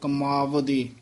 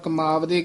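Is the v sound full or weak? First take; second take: full; weak. First: The v sound is spoken fully and firmly. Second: The v sound is weak and barely spoken. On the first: The speaker calls it right. "ਥੋੜਾ ਜਿਹਾ ਭਰਵਾਂ ਬੋਲਦਾ ਹੁੰਦਾ" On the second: The speaker calls it wrong. "ਉਹ ਵਾਹਵਾ ਨਹੀਂ ਬੋਲਿਆ ਜਾਂਦਾ ਪੂਰਾ ਸ਼ੁੱਧ"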